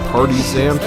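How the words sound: It sounds like 'party' plus 'zant'. "they say it like partisan, like the party followed by that dude from Twilight Princess"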